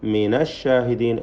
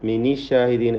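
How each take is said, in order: First: The nun is joined with an a vowel. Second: The nun is joined with an i vowel. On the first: The speaker calls it right. "ഫത്ഹാണ് അവിടെ നൂനിന് വരുന്നത്" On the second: The speaker calls it wrong. "കസ്റ് നൽകുകയില്ല"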